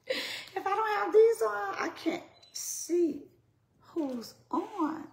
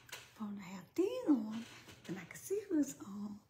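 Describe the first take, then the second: First: Mock complaint. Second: Said in the usual way. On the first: I know it's funny.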